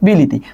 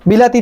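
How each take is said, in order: First: The second syllable has the vowel 'i'. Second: The second syllable has the vowel 'a'. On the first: The middle vowel changed under a neighbouring sound. "এই লাটা লি হয়ে গেছে" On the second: This is the original form before the change. "বিলাতি থেকে"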